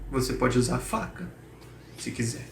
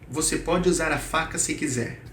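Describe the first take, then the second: First: The sentence is broken by a short pause inside. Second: The sentence flows straight through without any pause. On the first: The offer sounds hesitant. "podemos colocar pequenas pausas dentro do texto" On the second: The offer is made plainly. "do jeito que está, sem pausa"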